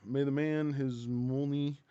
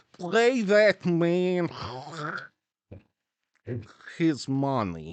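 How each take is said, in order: First: Put-on slow film-villain Russian accent. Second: Put-on loud, high, hugely drawn-out Russian accent; exaggerated Russian accent. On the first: Quoting KGB from Rounders, mock Russian accent. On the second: Quoting KGB from Rounders, hammed-up Russian accent. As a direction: ham up the Russian villain, dragging each word. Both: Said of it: "is that a Russian accent you're doing there".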